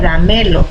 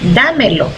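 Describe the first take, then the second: First: The first syllable is not stressed. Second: The stress is on the first syllable. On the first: The speaker calls it wrong. "Si nosotros quitamos esa tilde a la, diría" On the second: The speaker calls it right. "al agregarle la tilde suena de esta manera"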